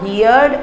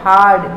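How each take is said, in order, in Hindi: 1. स्वर 'here' वाले स्वर जैसा है। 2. स्वर 'car' वाले स्वर जैसा है। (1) "नॉट हियर्ड" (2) "नॉट हार्ड"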